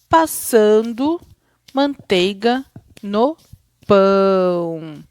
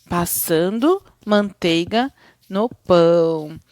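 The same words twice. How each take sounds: First: Slow suspenseful reading, pausing between words; slow with pauses. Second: Said in the usual way. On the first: Shown as a demonstration. Teacher reading a rhyme to build suspense, slow with pauses. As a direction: stretch each piece out, leave suspenseful gaps. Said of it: "ler mais devagar, com pausas". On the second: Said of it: "fale naturalmente".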